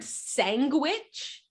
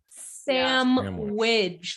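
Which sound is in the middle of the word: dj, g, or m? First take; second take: g; dj. First: A hard g sound is in the middle. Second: A dj sound is in the middle. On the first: "Like they literally added a G" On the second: "Like they added a D J"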